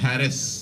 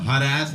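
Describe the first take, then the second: First: It is said the British way. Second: It is said the American way. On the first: "Britishers ... हम बताते हैं कैसे बोलना है" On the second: "अमेरिकन कहते हैं हम हरास बोलेंगे"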